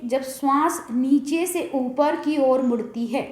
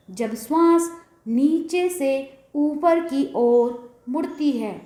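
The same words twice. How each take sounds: First: Slightly slow, measured sutra reading; measured recitation. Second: Drawn-out, phrase-by-phrase sutra reading; very slow recitation. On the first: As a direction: read out the sutra at a measured pace. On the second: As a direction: repeat it very slowly, stretching each phrase. Sutra repeated slowly for the listener. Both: Real, not acted.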